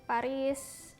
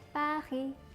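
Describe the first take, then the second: First: The final s is pronounced. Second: The final s is silent. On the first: The speaker calls it wrong. "aku masih sering banget orang-orang ya nyebutnya dengan Paris" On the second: The speaker calls it right. "huruf konsonan di belakang itu nggak dibaca. Jadi yang benar adalah Paris"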